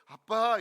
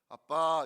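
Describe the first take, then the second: First: It is said in a higher, coaxing voice. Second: It is said in a low, serious voice.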